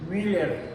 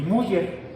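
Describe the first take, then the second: First: The first vowel is an umlaut ü sound. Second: The first vowel is a plain u sound. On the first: The speaker calls it right. "se pronuncia Müller, porque esto tiene diéresis, no es una U" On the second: The speaker calls it wrong. "no se pronuncia Müller"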